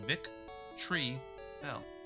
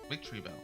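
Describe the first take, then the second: First: The name is said as vic, tree, bell. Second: The name is said like the word victory plus bell. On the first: The speaker calls it right. "But no, it's just Vic Tree Bell" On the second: The speaker calls it wrong. "I always thought it was victory. When you say it slower, it kind of sounds like that"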